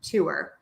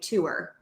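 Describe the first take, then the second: First: The H in her is dropped entirely. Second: The same.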